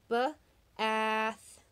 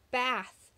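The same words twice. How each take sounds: First: Ba-ath with the short a drawn out; stretched vowel. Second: Said in the usual way. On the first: Shown as a demonstration. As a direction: pull the a in Ba-ath apart. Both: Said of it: "Does it say A?".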